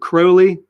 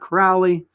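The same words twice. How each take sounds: First: The first syllable rhymes with crow. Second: The first syllable rhymes with cow. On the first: The speaker calls it right. "Crowley rhymes with holy" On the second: The speaker calls it wrong. "not Crowley"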